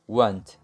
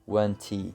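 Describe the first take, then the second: First: It ends on a light t sound. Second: It ends with an added ee vowel. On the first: The speaker calls it right. "a pronúncia termina com um leve som de T" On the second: The speaker calls it wrong. "ao invés de falar wanty"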